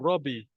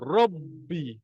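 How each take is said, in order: First: The b is short; the lips barely touch. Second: The b is held before being released. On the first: The speaker calls it wrong. "kita baru langgar sikit je bibir tu" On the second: The speaker calls it right. "Bagi dia mati dulu"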